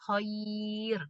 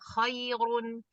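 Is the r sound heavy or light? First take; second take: light; heavy. First: The r is light and the word stops on it. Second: The r is heavy and the word ends in -un. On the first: The reader stops on the word. "karena diwakofkan ... itu tipis" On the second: The word is read on without stopping. "kalau misalnya dia lanjut itu kan tebel ya"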